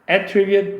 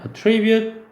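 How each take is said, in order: First: The stress is on the first syllable. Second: The stress is on the second syllable. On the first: It is the noun, meaning a quality or trait. "앞에다 강세를 두잖아" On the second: It is the verb, meaning to credit something to a cause. "동사면 attribute 강세가 뒤에 있고요"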